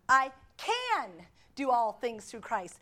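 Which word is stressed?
can. The stress falls on the word "can".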